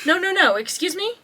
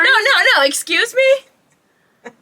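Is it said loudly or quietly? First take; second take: quietly; loudly. First: It is said quietly, without yelling. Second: It is said loudly, almost yelled.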